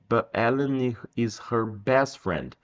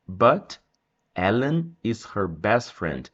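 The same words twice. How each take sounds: First: The T in 'but' is soft, not released. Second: The T in 'but' is strongly released. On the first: "Mas não precisa" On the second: "Aqui eu coloquei o bem forte o som do T"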